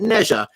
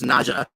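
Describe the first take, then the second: First: The name is said in its Americanized form. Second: The name is said in its original form. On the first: The speaker calls it wrong. "the American translations are calling it Neja" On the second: The speaker calls it right. "his name now, which is Naja"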